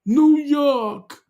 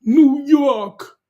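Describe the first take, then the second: First: High, loud hammed-up New Yawk; mock American accent; mock New York accent again. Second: High, loud hammed-up New Yawk; mock American accent; mock New York accent. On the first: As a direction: nail the New York twang. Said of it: "did I say it right, Jimmy?". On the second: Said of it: "Jimmy's getting into the spirit".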